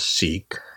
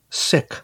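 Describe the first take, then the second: First: The word does not sound like 'sick'. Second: The word sounds like 'sick'. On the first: The speaker calls it wrong. "I've always pronounced it as Sikh" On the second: The speaker calls it right. "she did pronounce her religion as Sick"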